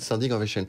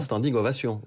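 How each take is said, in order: First: Ovation is pronounced the English way. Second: Ovation is pronounced the French way. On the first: The borrowed word keeps its English sounds. "vous dites standing ovation" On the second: The borrowed word is adapted to French sounds. "vous ne dites pas standing ovation"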